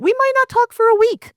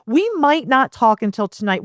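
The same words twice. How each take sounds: First: Not pushed up high; stress on not. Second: Said in the usual way. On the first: Shown as a demonstration. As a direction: lean hard on not. Repeated sentence, stressed take.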